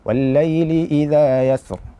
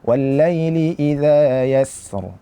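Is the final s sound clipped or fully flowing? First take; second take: clipped; fully flowing. First: The final s sound is cut short. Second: The final s sound flows out fully. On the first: The speaker calls it wrong. "Itu tidak sempurna" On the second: The speaker calls it right. "kita sempurnakan aliran suara"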